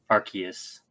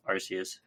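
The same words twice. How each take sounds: First: Arceus with a K sound, AR-kee-us; hard C in Arceus. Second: Arceus with an S sound, AR-see-us; soft C in Arceus. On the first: Offering the other reading of the game's name, hard-C Arceus. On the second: Correcting the game title to Legends Arceus, soft-C Arceus. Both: Shown as a demonstration. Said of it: "they were saying Arceus".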